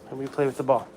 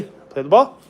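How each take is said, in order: First: Said in the usual way. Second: Higher, louder playful coax; excited dog voice. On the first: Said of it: "Hey, let me play with the ball". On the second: Real, not acted. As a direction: hype the dog up to play. Playing ball with dog.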